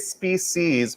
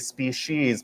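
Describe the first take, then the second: First: The middle consonant is a plain s sound. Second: The middle consonant is an sh sound. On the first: "put a C in the comments" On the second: "put a she in the comment section"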